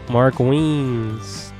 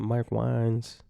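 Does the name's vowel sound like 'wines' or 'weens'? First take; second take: weens; wines. First: The name has the vowel of 'weens'. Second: The name has the vowel of 'wines'. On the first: The speaker calls it right. "That's how you say his name" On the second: The speaker calls it wrong. "I said Mark Wines"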